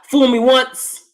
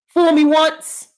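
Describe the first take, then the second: First: Said in the usual way. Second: Fool me once drawn out slowly and high; drawn-out quote. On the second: Shown as a demonstration. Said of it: "I'll have to know the quote".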